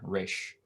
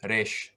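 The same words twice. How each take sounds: First: It is said with an English-style r sound. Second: It is said with a Hebrew-like r sound. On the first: "they'll just say resh. ... pronounces it with their own accent" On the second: "instead of um"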